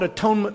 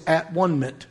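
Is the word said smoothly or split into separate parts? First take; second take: smoothly; split. First: The word is said smoothly as one word. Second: The word is split into three separate parts.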